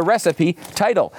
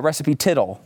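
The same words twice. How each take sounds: First: Said in the usual way. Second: "tittle" said with a short i, rhyming with little; misspelling read literally. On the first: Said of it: "Actually, she wrote the recipe, uh, recipe tittle". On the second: Shown as a demonstration. Pointing out her typo, "tittle" with a short i. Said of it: "Actually, she wrote the recipe".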